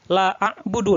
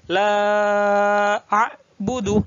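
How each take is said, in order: First: The vowel in 'la' is cut short. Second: The vowel in 'la' is held long. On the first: The speaker calls it wrong. "jangan la a'budu. Nah, salah" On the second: The speaker calls it right. "la-nya itu panjang"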